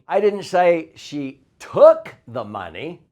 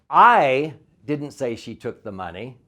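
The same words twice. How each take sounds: First: The word she is stressed. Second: The word I is stressed.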